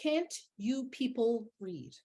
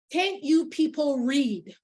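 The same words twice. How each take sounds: First: Softer, slow, weighted echo of the quote; quiet repeat. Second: Slow, raised yell, higher pitched; imitated yell. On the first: Retold or imitated. Speaker repeating the woman's remark to the room, quiet and deliberate. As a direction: let each word sink in, hushed. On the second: Older woman to a confused mother in line, imitated yell. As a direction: call it out at the confused shoppers, exasperated. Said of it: "literally she yelled".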